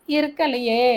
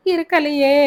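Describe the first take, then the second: First: Fading wail. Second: Higher, louder wailing cry; wailing mother. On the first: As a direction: let the wail die away. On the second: Mother wailing her answer to Albert, higher and louder. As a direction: cry it out loud in anguish. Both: Acted. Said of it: "என்று கதறிய".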